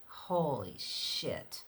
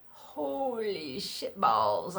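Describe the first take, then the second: First: Slow awed curse. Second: Drawn-out rising awed curse. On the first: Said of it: "I was so petrified". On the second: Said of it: "I was petrified". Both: Retold or imitated.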